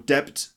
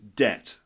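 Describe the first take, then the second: First: The lips close for a b sound. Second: The lips never close; no b sound. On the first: The speaker calls it wrong. "or debt" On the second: The speaker calls it right. "these lips should not meet when you say that word"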